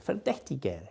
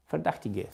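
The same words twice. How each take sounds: First: Verdächtiger with the umlaut ä, fer-DECH-ti-ger; self-corrected Verdächtiger, with ä and a final -er; Verdächtiger said properly in German; corrected German word. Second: Verdachtige with a plain a, no umlaut; a first, uncorrected try at Verdachtige; first try at the word. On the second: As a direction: Verdachtige said the wrong way, like Ver-dach-ti-ge. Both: Shown as a demonstration. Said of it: "good accent".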